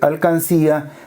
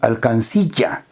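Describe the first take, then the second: First: The word ends in a plain 'ía' sound. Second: The word ends with an inserted 'll' consonant. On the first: The speaker calls it right. "en vez de decir alcancía" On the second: The speaker calls it wrong. "hay una inclusión de un elemento extraño"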